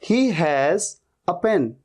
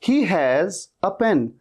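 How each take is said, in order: Both takes have the same delivery.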